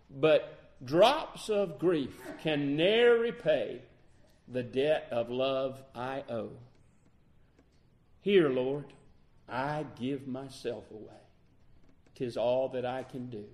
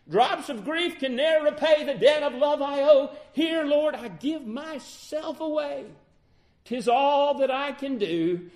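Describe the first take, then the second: First: Hymn lines spoken with long pauses; measured hymn recitation. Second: High, loud, ringing declaration; impassioned hymn recitation. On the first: Preacher quoting the hymn to congregation, measured recitation. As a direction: recite it deliberately, phrase by phrase. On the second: Preacher offering himself to the Lord, impassioned recitation. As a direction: cry the hymn out at full preaching force. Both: Real, not acted.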